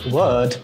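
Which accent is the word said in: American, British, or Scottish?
British. It is said in a British accent. "o britânico fala"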